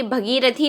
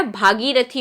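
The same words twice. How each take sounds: First: भगीरथी said with a short a in bha; भगीरथी, the short bha- version; wrong form. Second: भागीरथी said with a long aa in bhaa; भागीरथी, with bhaa stretched long; correct form. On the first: Teacher showing the mistaken भगीरथी, with a short bha. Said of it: "नहीं होता". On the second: Teacher giving the correct भागीरथी, with a long bhaa. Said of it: "होता है". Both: Shown as a demonstration.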